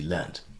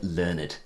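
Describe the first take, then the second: First: The word is said in its verb pronunciation. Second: The word is said in its adjective pronunciation. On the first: It is the past participle of learn. "as opposed to learned" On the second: It means very educated. "why has he said learned"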